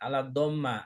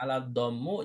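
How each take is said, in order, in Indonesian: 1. Kata terakhir diakhiri dengan vokal a. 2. Kata terakhir diakhiri dengan vokal u. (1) "jangan ala dhamma" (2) "jangan ala dhammu"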